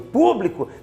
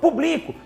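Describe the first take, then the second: First: The stress is on the first syllable. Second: The stress is on the second syllable. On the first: It is the noun meaning the public. The speaker calls it right. "o que seria o substantivo público" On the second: It is a verb form meaning I publish. The speaker calls it wrong. "transformou-se na forma verbal público"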